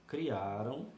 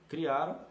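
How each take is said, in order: First: Said in the usual way. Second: "Criaram" punched louder, slightly higher; stress on verb. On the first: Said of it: "também no indicativo". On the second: Shown as a demonstration. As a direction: hit "Criaram" hard to point out the tense. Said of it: "passado, também no indicativo".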